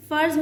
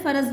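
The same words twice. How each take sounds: First: फ़र्ज़ said farz, r and z together with no vowel between; correct pronunciation. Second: फ़र्ज़ said faraz, an extra a between r and z; wrong pronunciation. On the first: Teacher giving students the correct farz. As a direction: clean farz in one syllable. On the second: Teacher showing students the wrong faraz. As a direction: show the mistake: fa-raz in two syllables. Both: Shown as a demonstration. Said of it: "फ़र्ज़ नहीं होता".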